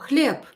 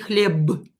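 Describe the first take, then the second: First: The word ends in a voiceless p sound. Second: The word ends in a voiced b sound. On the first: The speaker calls it right. "so I will pronounce it as p" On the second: The speaker calls it wrong. "I will not say хлеб"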